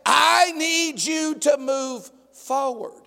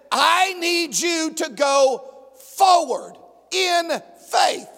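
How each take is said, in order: First: Calm God voice. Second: Booming, deliberate call to go forward; commanding God. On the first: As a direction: reassure gently but firmly. God's calm reply voiced. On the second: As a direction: push him forward with authority. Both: Acted.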